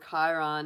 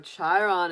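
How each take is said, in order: First: The name begins with a 'k' sound. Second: The name begins with a 'ch' sound.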